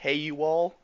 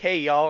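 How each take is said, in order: First: The words are said as separate words. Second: The words are run together into one.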